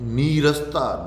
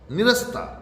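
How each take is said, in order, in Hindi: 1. पहला स्वर लंबा 'ee' है। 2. पहला स्वर छोटा 'i' है।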